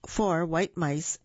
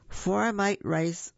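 First: Said in the usual way. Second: "four mite rice" slowly stumbled over, words swapped; misreading "four mite rice" as a slip of the tongue. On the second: Real, not acted.

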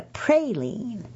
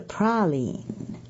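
First: "praline" as PRAY-leen; Georgia pronunciation. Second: "praline" as PRAH-leen; Mississippi pronunciation. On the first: Editor's Georgia hometown word for candy, "praline" said PRAY-leen. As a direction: give "praline" a long "ay" in the first syllable. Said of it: "[name] grew up in Moultrie". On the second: Author's Mississippi hometown version, "praline" said slowly as PRAH-leen. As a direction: open "ah" in "praline", drawn out slowly. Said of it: "But in [name]'s hometown of Laurel". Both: Shown as a demonstration.

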